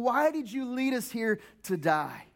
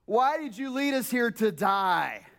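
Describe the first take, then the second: First: Slow, mild accusing whine; complaining Israelites. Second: Slow, accusing lament; mildly mock the Israelites' complaint; complaining Israelites. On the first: Retold or imitated. Pastor retelling Israelites complaining to Moses, slow mild whine. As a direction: lament it lightly to Moses. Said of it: "they start complaining". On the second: Pastor quoting the Israelites to Moses, slow mild lament. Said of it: "complaining that takes place by the Israelites".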